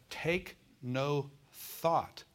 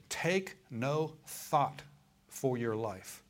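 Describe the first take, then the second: First: "Take no thought" stretched very slowly, every word pressed; slow it right down on "Take no thought"; preacher repeating "Take no thought" with heavy, slow weight; stress on take no thought. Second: "Take no thought" drawn out very slowly, each word weighted; preacher spelling out "Take no thought" word by word; stress on take no thought. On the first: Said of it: "notice again in verse twenty-five". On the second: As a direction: lean hard and slow on "Take no thought". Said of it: "notice this word here". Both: Shown as a demonstration.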